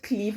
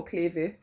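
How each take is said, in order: First: "Cleve" as one syllable, "kleev"; "Cleve" rhyming with "leave"; pronunciation option. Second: "Cleve" as two syllables, "klay-vay"; "Cleve" ending in a spoken "veh"; alternative pronunciation. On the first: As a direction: say "Cleve" with a long ee and silent final e. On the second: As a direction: say "Cleve" with the final e sounded. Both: Shown as a demonstration. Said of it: "is it Cleve or Cleve".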